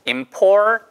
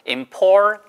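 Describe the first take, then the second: Both takes have the same delivery.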